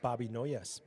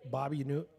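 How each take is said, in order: First: The last name sounds like the word noise. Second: The last name sounds like the word new. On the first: The speaker calls it right. "It's Bobby Noyes" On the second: The speaker calls it wrong. "I've been pronouncing his last name wrong"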